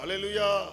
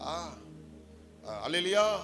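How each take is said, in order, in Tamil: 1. ஒரே ஒரு வெடிப்பாக, சத்தமாகச் சொல்லப்படுகிறது. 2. தயங்கித் தொடங்குகிறது; 'aa' ஒலி நீண்டு இழுக்கப்படுகிறது. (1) "ஒரே முறையில சத்தமா சொல்லணும்" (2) "இப்படிலாம் நான் சொல்லக்கூடாது"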